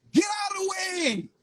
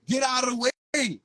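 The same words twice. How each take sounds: First: High, loud cry; first call shouted hardest; shouted command. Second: Said in the usual way. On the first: Acted. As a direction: yell it out to the crowd. Repeated command, first one shouted.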